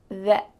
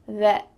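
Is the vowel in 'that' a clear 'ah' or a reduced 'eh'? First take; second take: reduced eh; reduced eh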